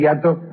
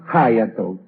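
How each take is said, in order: First: The word is said the Spanish way. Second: The word is said the English way. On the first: The speaker calls it right. "en vez de decir hiato" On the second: The speaker calls it wrong. "Esta tendencia a la pronunciación inglesa"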